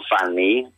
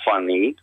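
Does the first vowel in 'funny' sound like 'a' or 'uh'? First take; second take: a; uh. First: The first vowel is an open 'a' sound. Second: The first vowel is a short 'uh' sound. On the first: It sounds like a vulgar word. The speaker calls it wrong. "dicono funny, che vuol dire farfalina" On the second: It means amusing. The speaker calls it right. "per dire funny"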